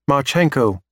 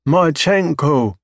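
First: Said in the usual way. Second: High, slow drawn-out alien voice. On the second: Acted. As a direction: stretch the name out like an alien learning it. Alien names Marchenko, slow.

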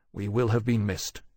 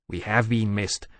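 First: "will" carries the weight, "have" unstressed; stress on will. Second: "have" carries the weight, as established fact; stress on have. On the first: Captain worrying about neglected duty, stress on "will". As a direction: lean on "will" as a supposition. Laurence's guess, then Temeraire's correction. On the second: Dragon correcting his captain's guess, stress on "have". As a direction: lean on "have" to correct him. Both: A narrator's reading.

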